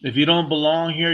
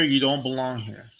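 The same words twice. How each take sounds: First: "don't" pushed up and louder; stress on don't. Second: "you" hit first, the rest sinks back down; "you" stressed, then falling away. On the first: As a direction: lean hard on "don't". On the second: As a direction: punch "you", let the rest fall. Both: Real, not acted. Emphatic repeated statement.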